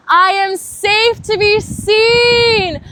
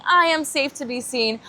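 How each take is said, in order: First: Very high, very loud and slow; a cathartic full-voice cry; cried out. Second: Said in the usual way. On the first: Shown as a demonstration. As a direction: belt it out from the heart. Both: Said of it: "bringing that energy into your heart and saying".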